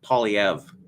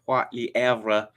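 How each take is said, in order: First: The name is said with an anglicized pronunciation. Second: The name is said with a French pronunciation. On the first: This is how the name's owner says it. "he is um, pronouncing it Polyev" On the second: This is the proper French pronunciation of the name. "I just made an effort to pronounce his name properly in French"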